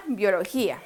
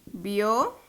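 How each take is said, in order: First: Said in the usual way. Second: Bio, lo, gí, a with long pauses; syllable by syllable. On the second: Shown as a demonstration. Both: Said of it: "Vamos a desglosarla".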